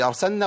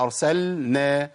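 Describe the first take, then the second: First: "أرسلنا" quickly as "arsanna", pitched up; rising question on "أرسلنا", no lam; merged lam. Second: "أرسلنا" slowly as "arsal-na"; slow chanted "أرسلنا" with full lam; clear lam. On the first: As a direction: lose the l of "أرسلنا" in a double n. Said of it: "هي". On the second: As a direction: hold the l apart from n in "أرسلنا". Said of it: "ولا". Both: Shown as a demonstration.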